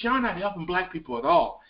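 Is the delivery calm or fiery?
calm. It is said in a plain, calm way.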